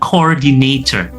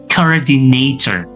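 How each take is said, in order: First: The ending is a full 'or' sound. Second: The ending is a reduced 'er' sound. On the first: The speaker calls it wrong. "Bukan coordinator" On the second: The speaker calls it right. "tetapi coordinator"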